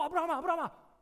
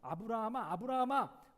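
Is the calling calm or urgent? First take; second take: urgent; calm. First: The name is called urgently, in a flustered voice. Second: The name is called calmly, as plain reading.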